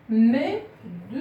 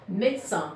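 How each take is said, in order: First: MÉDECIN slowly as MÉ, DE, CIN; syllable by syllable. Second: Said in the usual way. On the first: Shown as a demonstration. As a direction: break Médecin into three spaced beats, sounding the middle de. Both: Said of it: "il y a trois syllabes".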